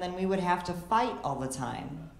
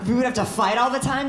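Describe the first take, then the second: First: Said in the usual way. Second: Higher and louder, stress on all; outraged disbelief. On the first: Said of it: "And she said". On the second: Real, not acted. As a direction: still stunned years later, throw it back. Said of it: "That's ruined me for years".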